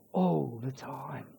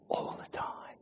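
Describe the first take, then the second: First: "All the time" voiced, much softer, slow. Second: Unvoiced whisper on "all the time". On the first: Preacher repeating "All the time" in a soft, slow voice. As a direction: say "All the time" low and gentle, slowly. Softly repeated after whisper. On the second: Preacher whispering "all the time" to the congregation. Pastor whispers the point home.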